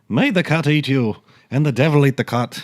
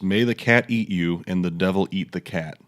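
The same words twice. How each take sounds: First: It is said in a put-on Irish accent. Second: It is said in the speaker's normal accent.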